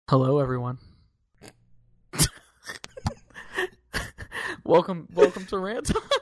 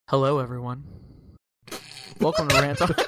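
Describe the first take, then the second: First: It is livelier, in a normal hosting voice. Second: It is flat and monotone, without personality. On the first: "Take two" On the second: "Here's my NPR intro. ... It's very monotone"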